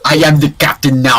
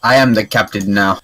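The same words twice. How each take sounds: First: Put-on African accent shouted through laughter; laughing African accent. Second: Bad put-on African accent. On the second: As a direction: deliver it in a clumsy African accent. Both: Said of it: "That was the worst African accent".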